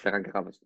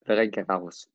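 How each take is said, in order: First: The name is said very quickly. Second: The name is said at a normal speed.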